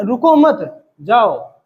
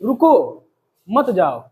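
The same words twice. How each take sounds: First: "रुको मत" run together, a break, then "जाओ"; pause after मत. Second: "रुको", a clear break, then "मत जाओ" dropping lower; pause after रुको. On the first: Teacher flipping the meaning to "go", pausing only after "मत". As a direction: slowly split it as "रुको मत / जाओ". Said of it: "और इसी को अगर ऐसे बोले". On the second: Teacher showing students a plea to stay, pausing right after "रुको". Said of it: "जैसे मैं आपसे कहूँ". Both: Shown as a demonstration.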